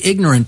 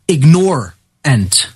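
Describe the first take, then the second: First: It is said the usual, everyday way. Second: It is said so 'ignore' is clearly heard. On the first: The speaker calls it wrong. "when we say ignorant, people don't really get what it really means" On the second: The speaker calls it right. "I want to propose that people start pronouncing that word ignorant"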